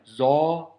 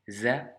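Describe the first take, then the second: First: The z is heavy and thick. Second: The z is light and thin. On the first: The speaker calls it wrong. "Ne surtout pas prononcer de cette manière" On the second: The speaker calls it right. "c'est un petit z vraiment léger, aminci"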